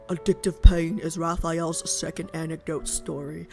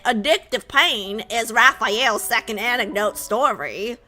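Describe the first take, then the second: First: It is read in his normal voice. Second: It is read in a Southern accent.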